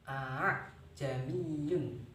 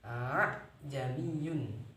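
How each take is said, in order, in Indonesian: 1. Hamzah kedua dilunakkan dan agak kabur. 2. Hamzah kedua adalah hentian penuh yang berat. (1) "dengan cara digusur" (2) "menjadikan yang kedua ini hamzah. Jadinya berat"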